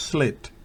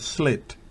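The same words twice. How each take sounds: First: The vowel is a short, lax i sound. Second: The vowel is a short, lax i sound.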